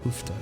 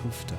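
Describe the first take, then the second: First: The vowel is a rounded 'oo' sound. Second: The vowel is a rounded 'oo' sound.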